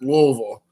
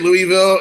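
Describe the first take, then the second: First: The name is said the local way. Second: The name is said the outsider way. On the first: The speaker is from the city. The speaker calls it right. "You pronounce it Louisville. That's how you say it" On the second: The speaker is not from the city. The speaker calls it wrong. "When people say Louisville, it makes me crazy"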